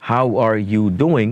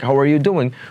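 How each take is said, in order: First: Each word is said separately, 'are' clearly heard. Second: Words run together and 'are' is barely heard. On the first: This is how Bengali speakers say it. "সুন্দর মতো ভেঙে ভেঙে piece by piece আমরা বলবো" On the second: This is how native speakers say it. "এতটাই ছোট হয়ে গেছে আরটা"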